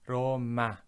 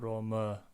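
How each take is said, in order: First: The final vowel is a full open 'ah'. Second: The final vowel is a reduced 'uh' sound. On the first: The speaker calls it right. "It's always a" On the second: The speaker calls it wrong. "not Roma"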